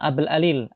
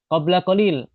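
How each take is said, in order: First: The q sounds are dropped entirely. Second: The q sounds are clearly pronounced. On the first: It is the everyday spoken form. "Mereka terkadang mengatakan" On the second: It is the formal standard form.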